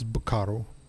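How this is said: It is said in a Japanese accent.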